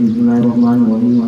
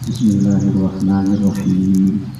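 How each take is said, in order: First: It is recited quickly and carelessly. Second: It is recited slowly and carefully. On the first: The recitation is done without care. The speaker calls it wrong. "jangan asal baca" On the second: The recitation is done with care. The speaker calls it right. "Coba kalau kita baca pelan-pelan"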